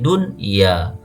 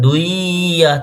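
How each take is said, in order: First: The n sound is pronounced clearly before y. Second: The n sound merges into the following y. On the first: The speaker calls it right. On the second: The speaker calls it wrong.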